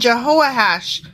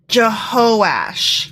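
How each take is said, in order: First: The name is said with four syllables. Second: The name is said with three syllables. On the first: The speaker calls it wrong. "I mispronounced that" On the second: The speaker calls it right.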